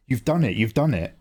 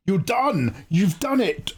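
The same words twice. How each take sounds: First: Said in the usual way. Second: High excited shout of congrats. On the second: Real, not acted. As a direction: shout the news out with joy. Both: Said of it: "Sorry, I'm shouting".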